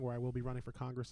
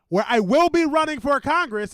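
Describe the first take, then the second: First: It is said at a normal volume. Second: It is said more loudly and forcefully.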